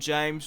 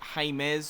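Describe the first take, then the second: First: It is said with an English J sound. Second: It is said with a Spanish H-like sound. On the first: The speaker calls it wrong. "I know it's not James Rodriguez" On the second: The speaker calls it right. "it's James or something or other"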